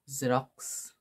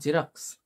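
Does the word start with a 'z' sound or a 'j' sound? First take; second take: z sound; j sound. First: The word starts with a 'z' sound. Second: The word starts with a 'j' sound. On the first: The speaker calls it right. "It is Xerox" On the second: The speaker calls it wrong. "Don't say Xerox because it is not Xerox"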